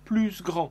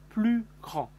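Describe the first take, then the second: First: The S at the end of plus is pronounced. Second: The S at the end of plus is silent. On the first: The speaker calls it wrong. "Je n'ai pas dit plus grand" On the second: The speaker calls it right. "j'ai dit plus grand que moi"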